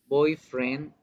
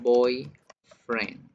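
First: Put-on Boyfriend, ударение на boy; stress on boy. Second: Put-on boyfriend, ударение на friend и падение; two words, land on friend; stress on friend. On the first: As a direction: say it as one word, weight on boy. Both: Shown as a demonstration. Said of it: "se va a pronunciar diferente".

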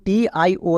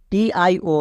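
No difference in how they are said.

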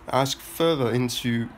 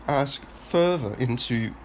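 The two takes are said the same way.

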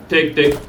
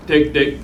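The two takes are said the same way.

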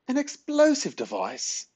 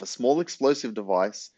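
First: Very high, slow, shocked squawk; spluttered disbelief. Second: Said in the usual way. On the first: A narrator's reading. Granny shocked by Ben's plan, spluttering question. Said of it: "spluttered Granny".

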